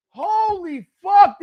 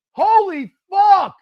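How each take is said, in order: First: High, slow, drawn-out yell; disbelieving shout again. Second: High, slow, drawn-out yell; disbelieving shout. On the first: Still reeling at the play, slow loud disbelief. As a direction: drag it out, stunned. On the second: Watching her team blow it, slow loud disbelief. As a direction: stretch it out in shock. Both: Real, not acted.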